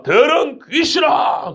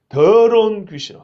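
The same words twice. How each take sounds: First: Stern rebuke. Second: Slow, firm curse, 더러운 stressed; firm rebuke. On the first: Jesus commands the unclean spirit, slow high shout. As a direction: drag out 더러운 as a commanding shout. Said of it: "그 아이를 보고 한다는 소리가". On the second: Jesus rebukes the spirit mercilessly, slow and firm. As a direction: pronounce 더러운 귀신아 slowly and firmly. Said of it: "사정없이 꾸짖습니다". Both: Retold or imitated.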